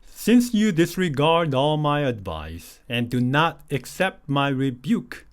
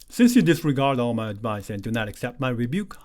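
First: It is read at a slow pace. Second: It is read at a somewhat faster pace. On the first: "천천히 같이 읽겠습니다" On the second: "이제 조금 빨리 하겠습니다"

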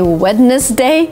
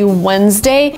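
First: The word is said with three syllables, sounding the d. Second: The word is said with two syllables, without the d. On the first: The speaker calls it wrong. "I hear a lot of people actually say Wednesday" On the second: The speaker calls it right. "we say Wednesday"

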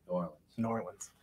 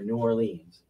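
First: It is said the way local residents say it. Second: It is said the way outsiders usually say it. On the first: This is how people from the city say it. "people in New Orleans pronounce it New Orleans" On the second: This is how most people elsewhere say it. "most everybody else pronounces it the way you did"

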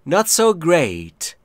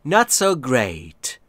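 The two takes are said the same way.

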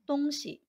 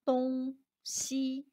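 First: The second syllable is light and neutral-toned. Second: The second syllable carries a full first tone. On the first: It means things or stuff. "When referring to things, the pronunciation is" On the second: It means east and west, directions. "When referring to directions, the pronunciation is"

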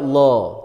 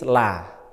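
First: The l is heavy and the vowel sounds like o. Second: The l is light and the vowel sounds like a. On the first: "kalau dibaca tebal maka bunyinya lo" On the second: "kalau dibaca tipis la"

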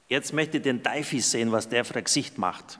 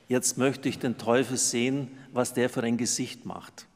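First: It is spoken in a regional German dialect. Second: It is spoken in standard High German.

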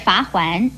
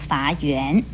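First: The second syllable is pronounced huan. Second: The second syllable is pronounced yuan. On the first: The speaker calls it right. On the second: The speaker calls it wrong.

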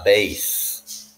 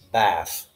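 First: The vowel is a long A sound. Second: The vowel is a short A sound. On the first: It names a musical instrument. "pronounced with long A" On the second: It names a kind of fish. "that's a fish"

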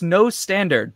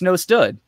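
First: The term ends with the full word 'standard'. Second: The term ends with the short syllable 'stud'. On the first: It is the careful form used when teaching. "when I'm in trainer mode, I'm like" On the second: It is the casual form used online. "when I'm just talking on the internet, I'm like"

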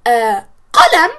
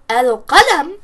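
First: The l is dropped and the q is doubled. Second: The l is clearly heard before a single q. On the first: The speaker calls it wrong. "we're hiding the lam and we're stressing the qaf" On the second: The speaker calls it right. "we're not hiding the lam and we're not stressing the qaf"

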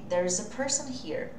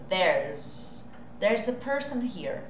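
First: 'There is' is said as two full words. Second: 'There is' is contracted into one syllable. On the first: "Eu coloquei separadinho aqui para você" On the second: "Mas eu posso abreviar deve"

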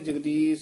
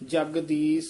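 First: The sounds are articulated softly and loosely. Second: Each sound is articulated firmly and fully. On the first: The speaker calls it wrong. "ਇਹ ਸਾਰੇ ਪੋਲੇ ਨਹੀਂ ਬੋਲਨੇ ... ਇਹ ਨਹੀਂ ਕਹਿਣਾ" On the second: The speaker calls it right. "ਮਿਹਨਤ ਨਾਲ ਸੁਧ ਕਰਨੇ ਚਾਹੀਦੇ ਆ"

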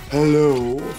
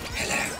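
First: It is said in a very deep voice. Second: It is said in a crazy, less deep voice.

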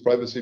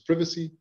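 First: It is said with a non-British pronunciation. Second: It is said with a British pronunciation.

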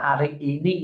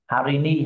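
First: Both words are said in full, four syllables. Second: The words are run together into three syllables. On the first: This is the correct written form. "khi chúng ta ghi cho đúng chính tả thì chúng ta sẽ ghi là hari ini" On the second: This is how people say it in fast casual speech. "Người Mã Lai họ hay nói nhanh, họ nói ghép lại hari ni"

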